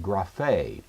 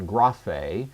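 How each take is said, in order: First: Graphe said grah-FAY, final syllable stressed and falling; stress on last syllable. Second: Graphe mis-stressed as GRAH-fay, weight on the first syllable; wrong stress, first syllable. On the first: Teacher correcting the wrong version, graphe stressed grah-FAY. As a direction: land firmly on the end of graphe, grah-FAY. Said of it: "be sure to pronounce it, uh, correctly". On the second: Teacher showing what not to say, graphe stressed GRAH-fay. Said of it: "It's not graphe". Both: Shown as a demonstration.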